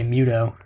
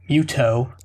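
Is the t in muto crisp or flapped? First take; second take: flapped; crisp. First: The t is a soft, voiced flap. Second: The t is a crisp, unvoiced stop. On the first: This is how American speakers say it. "I would just say muto. Just filthily slurring" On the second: This is how older British speakers said it. "they would say muto"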